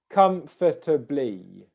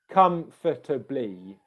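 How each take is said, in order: Both takes have the same delivery.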